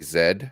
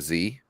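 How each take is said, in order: First: The letter is said the British way. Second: The letter is said the speaker's American way.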